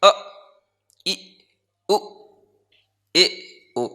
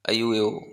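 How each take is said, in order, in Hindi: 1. स्वर धीरे-धीरे, एक-एक करके बोले जाते हैं। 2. स्वर जल्दी-जल्दी, आपस में मिलाकर बोले जाते हैं। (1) "ये तो बहुत देर में बोला हमने" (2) "जितनी आप शीघ्रता से उच्चारण कर सकते हो"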